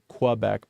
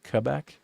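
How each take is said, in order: First: It is said with an English-style pronunciation. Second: It is said with a local Quebecois pronunciation. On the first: The speaker calls it wrong. "not Quebec" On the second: The speaker calls it right. "the right way that somebody from there would say it"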